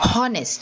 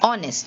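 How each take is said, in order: First: The word begins with an H sound. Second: The word begins with a vowel sound. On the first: The speaker calls it wrong. "You don't say honest" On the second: The speaker calls it right. "you say honest. You start with the sound of the O"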